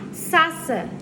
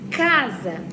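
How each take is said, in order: First: The word begins with an s sound. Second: The word begins with a k sound. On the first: The speaker calls it wrong. "o nome dele, né, C, ia ficar Sassa" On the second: The speaker calls it right. "Quando a gente vai falar casa, fica casa"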